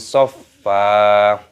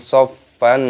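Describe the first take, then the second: First: The word ends on a lengthened vowel, no n. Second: The word ends short, with the n kept. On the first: The speaker calls it right. "mata iwad dibaca panjang" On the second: The speaker calls it wrong. "bukan soffan, soffan, bukan seperti itu"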